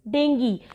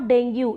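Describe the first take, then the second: First: The word ends in an 'ee' sound. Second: The word ends in an 'oo' sound. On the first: The speaker calls it right. "It's डेंगी" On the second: The speaker calls it wrong. "It's not डेंगू"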